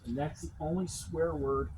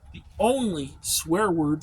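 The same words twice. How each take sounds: First: Said in the usual way. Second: "the only swear word" repeated slowly and louder, leaning on "only"; slow emphatic repeat. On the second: Shown as a demonstration. Insisting to the listener he barely swore, "only" stressed slowly. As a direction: drag out "the only swear word" to drive it home.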